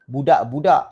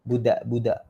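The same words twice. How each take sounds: First: "Budak-budak" with heavy, hard d's; too-hard d. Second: "Budak-budak" gently, with light d's; correct light d. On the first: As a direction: hit each d in "Budak-budak" firmly. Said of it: "Salah tu sebenarnya". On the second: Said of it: "Kena sini". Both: Shown as a demonstration.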